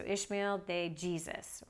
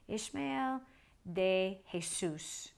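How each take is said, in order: First: Said in the usual way. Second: "Jesus" said Spanish-style as hay-SOOS; "Jesus" with an H sound, stressed on the last syllable; Spanish pronunciation. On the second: Shown as a demonstration. First says name in Spanish way.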